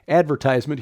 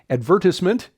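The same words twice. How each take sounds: First: The word is said the American way. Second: The word is said the British way.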